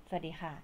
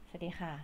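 The two takes are said the same way.

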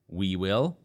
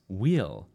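First: It is said as two full words. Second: It is said as one contracted word. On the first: "We will becomes we'll" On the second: "becomes we'll"

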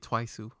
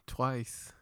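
First: The word ends with an added u vowel. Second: The word ends on a plain s sound.

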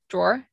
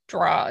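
First: The word ends with an audible 'er' sound. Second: The word ends without any 'er' sound.

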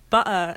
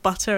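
First: The middle t is dropped, not clearly pronounced. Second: The middle t is clearly pronounced. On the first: This is how the speaker talked before. The speaker calls it wrong. "I used to say like butter" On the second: This is how the speaker talks now. The speaker calls it right. "Or instead of like butter"

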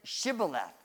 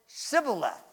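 First: The word begins with an 'sh' sound. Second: The word begins with an 's' sound. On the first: The speaker belongs to the group. The speaker calls it right. "The people in Gilead, Jephthah's area, pronounced it Shibboleth" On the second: The speaker is an outsider. The speaker calls it wrong. "The people from Ephraim called it Shibboleth"

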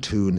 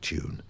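First: It is said 'toon', with no y sound. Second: It is said 'tyoon', with a y sound. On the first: "drop the "y" sound after certain consonants, so they end up saying ... tune" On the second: "instead of tune"

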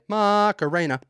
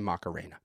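First: It is said with lively, dramatic flair. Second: It is said flat, like a normal name.

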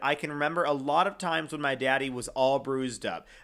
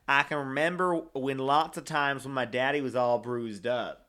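First: It is said in the speaker's plain accent. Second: It is said in an Alabama accent.

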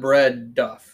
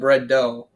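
First: The last word is said as 'duff'. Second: The last word is said as 'doe'. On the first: The speaker calls it wrong. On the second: The speaker calls it right.

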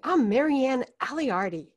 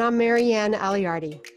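First: The name is said with lively enthusiasm. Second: The name is said in a plain, ordinary tone.

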